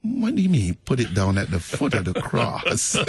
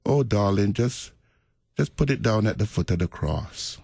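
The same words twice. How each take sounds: First: Puzzled wondering. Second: Gentle retold Jamaican elder's accent; mild, sweet Jamaican lilt. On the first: Retold or imitated. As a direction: question it in amused bafflement. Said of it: "you always wondered". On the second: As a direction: lightly imitate a Jamaican elder soothing a friend. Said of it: "in that sweet Jamaican accent".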